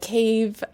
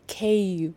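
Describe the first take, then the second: First: The word ends with a v or f sound. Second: The word ends with a short w-like sound. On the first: The speaker calls it wrong. "instead of cave" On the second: The speaker calls it right. "I should say cave"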